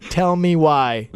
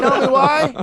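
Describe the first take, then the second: First: Slow, patient mock-mom coaxing; imitating wife. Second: High, louder exasperated mock yell. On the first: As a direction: draw it out like a calm parent asking nicely. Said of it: "I've heard my wife say". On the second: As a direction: shout it back in comic disbelief. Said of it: "I'm yelling".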